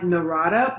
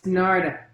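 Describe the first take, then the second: First: The name is said with three syllables. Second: The name is said with two syllables. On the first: The speaker calls it wrong. "that's the way I was pronouncing it" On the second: The speaker calls it right. "but it's Narda"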